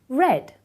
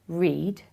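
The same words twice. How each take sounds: First: The word sounds exactly like 'red'. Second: The word does not sound like 'red'. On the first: It is the past tense. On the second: It is the present tense.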